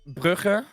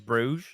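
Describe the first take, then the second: First: The name is said with the local Dutch pronunciation. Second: The name is said with the English pronunciation. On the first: This is how locals name the city. "It's it's Brugge" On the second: This is the name English speakers use. "the English pronunciation of the city is Bruges"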